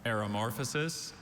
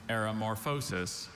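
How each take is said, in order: First: "Aeromorphosis" with weak -fuh-sis, tune rising; first pronunciation. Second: "aeromorphosis" with long O in -FOH-sis, tune falling; alternate pronunciation. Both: Shown as a demonstration. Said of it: "Are there any alternate pronunciations".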